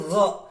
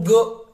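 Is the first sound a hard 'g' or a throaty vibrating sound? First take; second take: throaty; hard g. First: It starts with a vibrating throaty sound. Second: It starts with a hard 'g' stop. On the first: The speaker calls it right. "tapi gha. Yang mana si tenggorokan ini berasa getar" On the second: The speaker calls it wrong. "bukan go"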